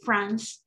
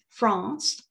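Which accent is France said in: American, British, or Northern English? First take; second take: American; British. First: It is said in an American English accent. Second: It is said in a British English accent. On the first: "in American English, we say France" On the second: "In British English, we say France"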